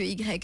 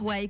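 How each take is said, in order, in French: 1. La lettre se prononce à la française, 'i grec'. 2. La lettre se prononce à l'anglaise, 'why'. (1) "que Y" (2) "c'est beaucoup plus, plus intéressant de dire Y"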